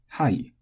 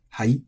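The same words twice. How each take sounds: First: It is said plainly, with a high-low pitch. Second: It is said in a sarcastic, incredulous tone. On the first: "it's technically high-low" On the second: "it's almost a sarcastic way of responding"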